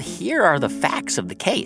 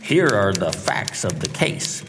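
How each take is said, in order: First: It is said in his normal voice. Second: It is said in a put-on detective voice.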